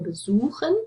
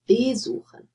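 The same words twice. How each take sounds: First: The stress is on the second syllable. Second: The stress is on the first syllable. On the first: The prefix is inseparable. The speaker calls it right. "So you see the stress is on the stem here" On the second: The prefix would be separable. The speaker calls it wrong. "you don't say verkaufen or besuchen"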